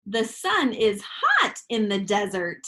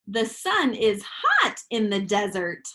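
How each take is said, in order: First: It is read in an excited, lively way. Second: It is read in an excited, lively way.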